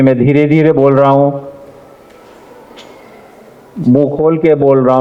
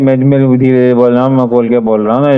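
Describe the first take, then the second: First: It is spoken slowly and clearly, mouth open. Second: It is spoken quickly and mumbled, hard to understand. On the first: The speaker calls it right. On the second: The speaker calls it wrong. "ना कि"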